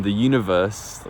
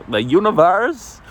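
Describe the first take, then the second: First: Said in the usual way. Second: THE UNIVERSE drawn out and pitched way up; mock-grand. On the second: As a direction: playfully proclaim "the universe", slow and high. Mock-grand repeat of same words.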